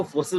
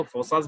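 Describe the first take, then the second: First: फोर्सेस said as for-ses, with a short e in the second syllable; फोर्सेस, the e-vowel version; one way of saying it. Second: फोर्सास said as for-saas, with a long aa in the second syllable; फोर्सास, the long-a version; the other way of saying it. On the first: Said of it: "कुछ लोग इसको फोर्सेस बोलते हैं". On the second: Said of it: "कुछ लोग इसको फोर्सास बोलते हैं". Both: Shown as a demonstration.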